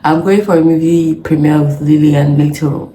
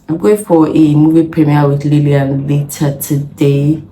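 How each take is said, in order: First: It is said fast. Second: It is said slowly.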